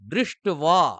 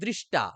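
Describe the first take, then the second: First: The word has a w sound after t. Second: The word ends in a plain t sound. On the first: The speaker calls it right. "তাই আমাদের উচ্চারণ করতে হবে দৃষ্ট্বা" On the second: The speaker calls it wrong. "আমরা এখন অনেকে বলি দৃষ্টা"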